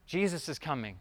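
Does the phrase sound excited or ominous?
excited. It is said in a happy, excited tone. His return is something to look forward to. The speaker calls it right. "daddy's home mode"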